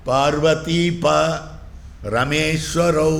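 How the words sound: There is a break after the syllable pa. It refers to Parvati's husband and the lord of Rama.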